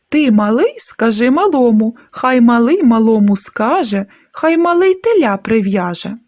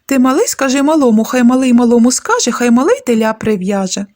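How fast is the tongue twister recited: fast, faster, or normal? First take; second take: normal; faster. First: It is recited at a normal speed. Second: It is recited at the fastest speed.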